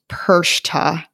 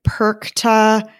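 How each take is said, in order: First: The middle consonant is a soft sh-like sound. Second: The middle consonant is a hard k sound. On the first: The speaker calls it right. "like SH, not a hard CH" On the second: The speaker calls it wrong. "people pronounce it"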